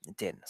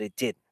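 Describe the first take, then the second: First: "It didn't." dropped much softer, let it fall away; quiet repeat. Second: Said in the usual way. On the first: Real, not acted. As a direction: repeat "It didn't." as a soft, resigned echo. Repeats the admission, fading.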